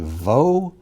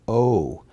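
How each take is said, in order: First: The syllable begins with a V sound. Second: The syllable begins directly with the vowel. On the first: "It can be Vo" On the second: "or just O without the V sound at all"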